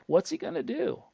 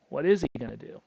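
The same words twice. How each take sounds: First: He said high, a sharp rise on he; rhetorical question. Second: Is pressed hard, pitch level; stress on is. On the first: To the listeners about the broke kid, he raised high. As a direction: lift the word he way up in disbelief. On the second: Repeating the question about the kid, is stressed. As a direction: lean on the word is, a touch louder. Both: Shown as a demonstration.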